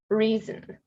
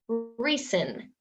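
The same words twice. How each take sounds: First: The middle consonant is a buzzing z sound. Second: The middle consonant is a hissing s sound. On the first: The speaker calls it right. "these words make a z sound" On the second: The speaker calls it wrong. "Spanish speakers will pronounce them as if they're the s sound"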